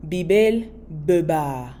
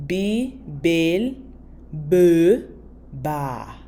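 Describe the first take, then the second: First: Said in the usual way. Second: Bibel beba broken into "bee... bel... buh... baah"; syllable by syllable. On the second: Shown as a demonstration. Teacher models two cups for learners, slowly, syllable by syllable. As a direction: draw out each syllable of Bibel beba with gaps between.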